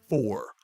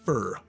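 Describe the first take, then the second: First: The vowel sounds like 'or'. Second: The vowel sounds like 'er'. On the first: The speaker calls it right. "pronounce it er instead of or" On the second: The speaker calls it wrong. "not fur"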